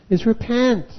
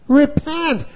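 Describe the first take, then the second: First: Said in the usual way. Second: Repent! called out higher and punched; preacher hits Repent! as a command; emphatic repent. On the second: Shown as a demonstration. Preacher to the revival crowd, a sharp emphatic Repent!. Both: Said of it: "the whole message of this revival, is repent".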